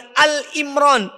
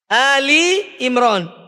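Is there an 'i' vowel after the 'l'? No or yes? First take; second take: no; yes. First: The 'l' runs straight into 'Imran' with no vowel. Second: An 'i' vowel follows the 'l' before 'Imran'. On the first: The speaker calls it wrong. "bukan Al Imran. Ya, ini banyak yang keliru" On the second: The speaker calls it right. "Yang benar adalah surat Ali Imran. Ya. Lamnya pakai kas kasroh"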